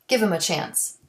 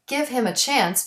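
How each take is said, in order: First: The H in 'him' is dropped. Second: The H in 'him' is clearly pronounced. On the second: "Delete the H in he, his, him"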